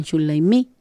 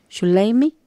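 First: "Shumlaimi" as Mapuche speakers in Argentina say it, with the stress on the final syllable "mi"; Argentine stress. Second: "Shumlaimi" with the stress on "lai", not on "mi"; stress on lei. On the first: Teacher shows how Argentine Mapuche say "Shumlaimi", stressing the end. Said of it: "la parte argentina y le dicen". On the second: Teacher shows the Chilean stress of "Shumlaimi" to her listeners. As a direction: lean on the middle of "Shumlaimi". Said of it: "Cargamos la voz en la ley en vez del mi". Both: Shown as a demonstration.

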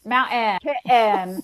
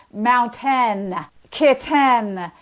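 First: "Mountain, kitten" with a glottal stop for T; glottalized T. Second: "mountain, kitten" with a full crisp T; hypercorrect T. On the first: Expert showing the Utah feature, glottal stop in "Mountain, kitten". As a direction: drop the T in "Mountain, kitten" to a catch, then "-en". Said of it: "the glottalization of T". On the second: Expert showing the overcorrected Utah version, hard T in "mountain, kitten". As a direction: overdo the T: "moun-TEN, kit-TEN". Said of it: "a hypercorrect version of this". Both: Shown as a demonstration.

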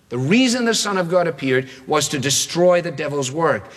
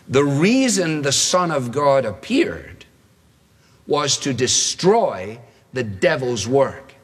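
First: Said in the usual way. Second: Slow, deliberate reading of the verse; slow scripture reading. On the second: Shown as a demonstration. Preacher reads the key verse slowly to the congregation. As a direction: read the verse slowly and solemnly. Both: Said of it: "Now here comes our quote".

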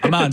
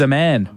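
First: "Aman" said as "uh-MAHN"; corrected name pronunciation. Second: "Aman" said like "a man"; mispronounced name. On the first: Host apologising to the caller, "Aman" corrected to uh-MAHN. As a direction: say "Aman" with a long ah, as in "calm". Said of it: "sorry about that, Aman". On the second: Host misreading a caller's name, "Aman" mispronounced as "a man". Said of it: "It's, it's pronounced Aman". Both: Real, not acted.

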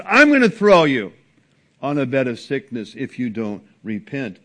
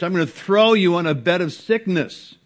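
First: Emphatic warning. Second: Stern warning. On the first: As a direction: bring it down like a final verdict. Quoting again after devil aside. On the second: Quoting Jesus to the churches. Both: Acted.

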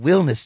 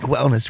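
First: "Willness" with the name Will as first syllable; "Willness", first syllable leaned on to rhyme with hill; punning mispronunciation. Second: Said in the usual way. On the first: Shown as a demonstration. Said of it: "Willness, not wellness". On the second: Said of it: "not wellness".

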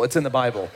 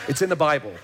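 First: Said in the usual way. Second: It's in the Bible said with a chuckle; amused laughing repeat. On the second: Real, not acted.

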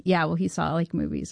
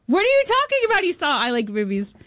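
First: Said in the usual way. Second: High, incredulous yelp on what; stunned disbelief. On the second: Retold or imitated. Hearing that Adam Sandler saw her film, stunned disbelief. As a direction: she can't believe what she's hearing.

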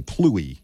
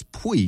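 First: Pluie with a clear L after the p, the way it looks to an American; pluie, L sounded; pronounced with the L. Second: Pui said with no L at all, just pwee; dropping the L. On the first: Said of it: "it has an L to me in American". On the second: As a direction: say pui, swallowing the L entirely. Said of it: "You don't say the L". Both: Shown as a demonstration.

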